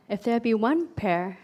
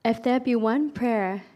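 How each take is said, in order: Both takes have the same delivery.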